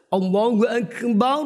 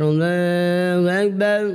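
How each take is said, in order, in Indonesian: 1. Kata-katanya diucapkan dengan jelas. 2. Kata-katanya tidak jelas dan samar. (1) "Jadi pelafalannya jelas" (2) "kan gak jelas"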